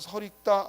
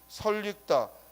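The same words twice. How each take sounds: First: The final l links straight into the vowel. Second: An extra l sound is added before the vowel. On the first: The speaker calls it wrong. "연음해서 설익다 안 됩니다" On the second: The speaker calls it right. "반드시 첨가가 일어나고 설익다라고 발음해야지"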